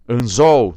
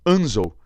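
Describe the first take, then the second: First: The stress is on the last syllable. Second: The stress is on the first syllable. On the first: The speaker calls it right. "estou chamando assim" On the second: The speaker calls it wrong. "Joga para cá o acento, ó"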